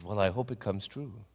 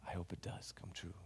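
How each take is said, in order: First: Said in the usual way. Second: Soft unvoiced whisper. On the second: [name] hoping the dream comes true, whispered. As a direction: breathe the hope.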